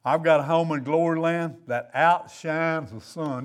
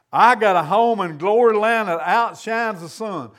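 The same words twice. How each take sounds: First: Said in the usual way. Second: Emphatic declaration. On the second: Real, not acted. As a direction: proclaim the song line with conviction. Repeats song line with emphasis.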